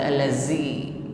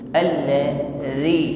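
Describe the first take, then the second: First: The z sound is said with a hiss. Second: The z sound is voiced with no hiss. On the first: The speaker calls it wrong. "jangan diucapkan dengan desis, bukan allazi" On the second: The speaker calls it right. "tidak ada desis"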